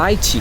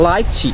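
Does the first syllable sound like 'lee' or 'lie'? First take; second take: lie; lie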